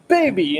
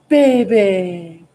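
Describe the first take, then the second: First: It is said in an angry, displeased tone. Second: It is said in cooing baby talk.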